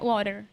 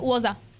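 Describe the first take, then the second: First: It is said in an American accent. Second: It is said in a Scottish accent. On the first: "o americano é" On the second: "o escocês é"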